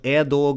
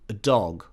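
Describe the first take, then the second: First: The article has a full, longer vowel. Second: The article is a very short schwa. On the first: The speaker calls it wrong. "It's not a dog" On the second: The speaker calls it right. "a very short, a"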